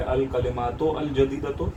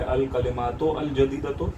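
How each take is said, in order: First: A separate 'al' is said before jadidatu. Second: A separate 'al' is said before jadidatu.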